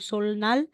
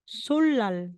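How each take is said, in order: First: The middle consonants are pronounced l then n. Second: The middle consonants are pronounced as a double l. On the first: The speaker calls it wrong. "na sasabihin mong sulnal" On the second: The speaker calls it right. "magiging sulal"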